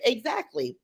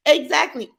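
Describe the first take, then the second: First: Said in the usual way. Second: "Exactly." said higher and louder, punched hard; emphatic agreement. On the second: Real, not acted. Streamer backing a viewer's comment, loud emphatic agreement. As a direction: slam the point home to chat.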